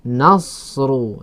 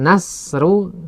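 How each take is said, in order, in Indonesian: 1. Bunyi s itu berat dan tebal. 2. Bunyi s itu ringan dan tipis. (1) "kalau shad nasru" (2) "Kalau sin nasru"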